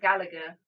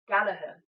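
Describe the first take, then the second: First: The second G sound is pronounced. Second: The second G sound is silent. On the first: The speaker calls it wrong. "not Gallagher" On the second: The speaker calls it right. "The second G is silent"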